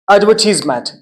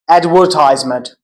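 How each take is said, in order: First: It is said with a British accent. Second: It is said with an American accent.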